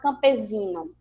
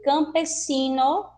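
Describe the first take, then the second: First: The middle consonant is a voiced z sound. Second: The middle consonant is a voiceless s sound. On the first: The speaker calls it wrong. "e não campesino" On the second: The speaker calls it right. "ele vai sempre possuir o som do S"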